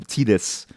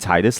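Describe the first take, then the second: First: The first syllable sounds like 'teat'. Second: The first syllable sounds like 'tide'. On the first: The speaker calls it wrong. "Like the teat, the teat of a cow" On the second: The speaker calls it right. "like a tide of water"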